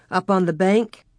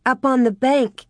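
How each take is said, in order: First: Rising question on bank; questioning tune. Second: Higher, falling answer on bank; answering tune. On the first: Pa asking where the wolf stood, rising question. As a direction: ask it, voice lifting at the end. Pa asks, Carrie repeats. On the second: Carrie answering Pa's question, firm falling answer. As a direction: confirm it firmly, voice dropping. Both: A narrator's reading.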